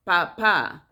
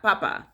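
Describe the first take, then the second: First: "papa" with the last A stressed; Spanish stress. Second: "papa" with stress on the first syllable; English-style "papa", last A left unstressed; English pronunciation. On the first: Showing how Spanish says dad, "papa" stressed on the last A. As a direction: land firmly on the final A of "papa". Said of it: "In Spanish it's papa". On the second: Showing what Spanish is not, "papa" stressed up front. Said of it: "in Spanish it's not papa". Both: Shown as a demonstration.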